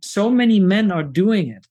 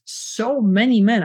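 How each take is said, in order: First: Said in the usual way. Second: "many" lifted and drawn out, slower repeat; stress on many. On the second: Real, not acted. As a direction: lean hard on "many", slowing the whole phrase.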